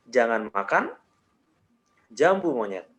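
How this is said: There is a pause after makan. "jeda yang berikutnya gue kasih di setelah makan"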